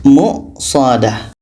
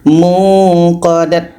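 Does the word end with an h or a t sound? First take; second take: h; t. First: The word ends with an h sound. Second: The word ends with a t sound. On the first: The speaker calls it right. "menjadi muqsadah" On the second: The speaker calls it wrong. "tidak boleh dibaca muqadat"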